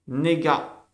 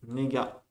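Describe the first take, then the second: First: "Nega" called out with a falling end; announced Hebrew word, loud. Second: "Nega" repeated quietly, falling; softer repeat. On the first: Teacher calling the second word "Nega" to the class. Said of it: "Deuxième mot". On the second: Teacher quietly repeating "Nega" for students. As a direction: repeat "Nega" gently after the call. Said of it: "On a la Ain là". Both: Shown as a demonstration.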